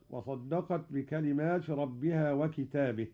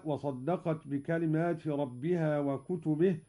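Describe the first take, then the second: First: وكتابه in the singular, wakitaabih with a long aa; Qalun reading. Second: Said in the usual way. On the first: Shown as a demonstration. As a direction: say وكتابه as wa-ki-taa-bih. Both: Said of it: "قرأ قالون بالإفراد".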